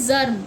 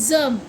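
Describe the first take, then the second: Both takes have the same delivery.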